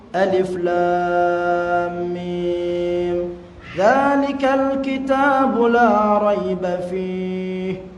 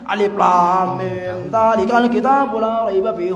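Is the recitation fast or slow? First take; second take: slow; fast. First: It is recited slowly with clear separate words. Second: It is recited quickly with words run together. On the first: The reader can reflect on the meaning. The speaker calls it right. "Kalau kita baca pelan-pelan" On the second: The reader does not absorb the meaning. The speaker calls it wrong. "Terlalu cepat nanti kurang menghayati"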